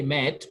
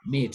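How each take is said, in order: First: MET with short "eh"; wrong vowel. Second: MEAT with long "ee"; correct vowel. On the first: French teacher shows what not to say, short-vowel "met". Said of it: "You don't say met". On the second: French teacher corrects the wrong vowel, long-vowel "meat". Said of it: "but meat". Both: Shown as a demonstration.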